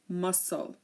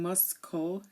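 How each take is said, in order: First: The c is silent after the s. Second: The c is pronounced as a k sound. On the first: The speaker calls it right. "it's silent here in muscle" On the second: The speaker calls it wrong. "we're not saying muscle"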